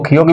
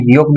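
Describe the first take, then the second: First: "کھیوک" with an aspirated kh at the start; "کھیوک", first sound kh, not g; aspirated K reading. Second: "گیوک" with a voiced g at the start; "گیوک", first sound g, not kh; G reading. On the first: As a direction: say "کھیوک" opening on a breath-puffed k. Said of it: "اس کو کھیوک بھی کہتے ہیں". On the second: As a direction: say "گیوک" opening on a hard g. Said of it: "گیوک بھی کہتے ہیں". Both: Shown as a demonstration.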